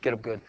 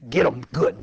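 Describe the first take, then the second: First: It is said in a gentle, pastoral tone. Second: It is said in a blunt, harsh tone. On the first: "You want me to say that in a pastoral way?" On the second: "Be harsh"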